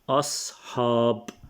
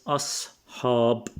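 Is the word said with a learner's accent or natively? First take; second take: natively; natively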